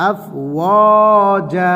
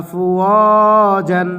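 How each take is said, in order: First: আফওয়াজা drawn out, ending on a long -a; আফওয়াজা recited slowly with pause form; stopping pronunciation. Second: আফওয়াজান drawn out with full nunation -an; আফওয়াজান with its tanween sounded; waqf-free recitation. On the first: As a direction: stop on আফওয়াজা, tanween dropped to -a. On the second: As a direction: sing আফওয়াজান slowly, ending on -an. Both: Shown as a demonstration. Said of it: "এক জবর পড়ে যাবে".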